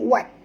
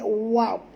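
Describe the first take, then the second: First: The sound is cut short and abrupt. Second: The sound is drawn out long. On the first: The speaker calls it wrong. "baca pendek dia jadi wat" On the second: The speaker calls it right. "kalau kita baca sebut tu memanjang"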